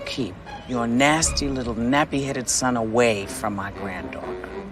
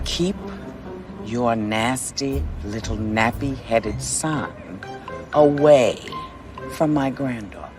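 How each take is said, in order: First: The sentence is spoken at a normal, quicker pace. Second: The sentence is spoken slowly and deliberately.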